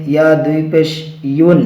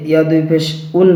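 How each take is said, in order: First: ইউন said with a y glide, as "yun"; ইয়া দুই পেশ ইউন with the y sound; correct pronunciation. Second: উন said flat, with no y glide; the common mistake, ইয়া দুই পেশ উন; উন with the y sound dropped; wrong pronunciation. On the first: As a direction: say ইউন with a clear y before the u. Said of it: "উচ্চারণ সঠিক হবে". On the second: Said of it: "উন উচ্চারণ সঠিক হবে না". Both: Shown as a demonstration.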